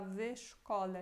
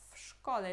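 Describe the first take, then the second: First: The w is voiced, sounding like v. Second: The w is voiceless, sounding like f. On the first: The speaker calls it wrong. "a gente não fala w szkole" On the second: The speaker calls it right. "Esse W fica com som de F"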